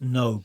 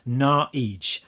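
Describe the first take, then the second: First: The name ends in an open vowel. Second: The name ends in a consonant sound. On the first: The speaker calls it wrong. "at least I thought it was supposed to be pronounced No" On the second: The speaker calls it right. "you're actually supposed to pronounce it Naij"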